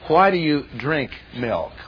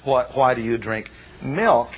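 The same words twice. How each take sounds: First: The stress falls on the word drink. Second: The stress falls on the word milk. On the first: It asks why one drinks milk rather than eating it. The speaker calls it wrong. "let's put the emphasis on the verb" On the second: It asks why one drinks milk rather than other drinks. The speaker calls it right. "The proper emphasis is"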